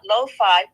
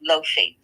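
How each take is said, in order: First: The name does not rhyme with Sophie. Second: The name rhymes with Sophie. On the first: The speaker calls it wrong. "we pronounce her name not lo-fi, which I did for years and did not realize I was mispronouncing it" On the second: The speaker calls it right. "It's actually Lofi, like Sophie, but with an L"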